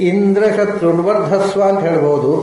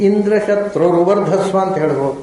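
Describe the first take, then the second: The two takes are said the same way.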